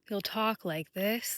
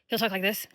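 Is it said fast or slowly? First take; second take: slowly; fast. First: It is said very slowly. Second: It is said very fast.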